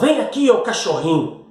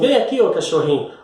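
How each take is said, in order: First: It is said in a harsh, insulting tone. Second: It is said in a sweet, affectionate tone. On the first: The boyfriend is being insulted. "se por outro lado ela fala" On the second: The boyfriend is being called lovingly. "de uma maneira graciosa dessa forma"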